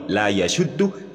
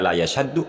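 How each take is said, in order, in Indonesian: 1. Vokal setelah 'yash' adalah 'u'. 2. Vokal setelah 'yash' adalah 'a'. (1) "la yashaddu atau la yashuddu yang benar" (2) "yang dibaca la yashaddu oleh Haris Abu Naufal"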